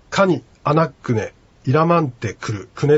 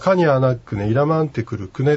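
First: The phrase is chopped into separate broken pieces. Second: The phrase flows smoothly with a flat pitch. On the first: It sounds stiff and formal. The speaker calls it wrong. "こうブツブツブツと切ると聞いてて非常になんか堅苦しい感じする" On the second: It sounds natural and is understood. The speaker calls it right. "平板で発音すると通じます"

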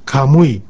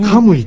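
First: The accent is not on the first syllable. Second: The accent is on the first syllable. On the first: The speaker calls it right. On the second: The speaker calls it wrong.

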